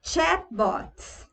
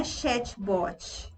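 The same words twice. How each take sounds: First: "Chatbot" said the English way, ending on t; crisp English "Chatbot", higher; correct chatbot. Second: "chatbot" with an added i sound at the end; Brazilian-style "chatbot", chatchi. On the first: Teacher repeating correct "Chatbot" to students. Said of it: "não é chatbot". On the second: Teacher imitating the Brazilian mistake on "chatbot". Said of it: "não é". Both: Shown as a demonstration.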